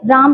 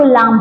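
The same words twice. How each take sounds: First: Said in the usual way. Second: लाम with L replacing the R of राम; child's lisp. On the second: Shown as a demonstration. Teacher shows a child's slip on राम, lisped लाम. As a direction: say लाम, swapping R for L. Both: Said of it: "राम को बच्चा क्या बोले".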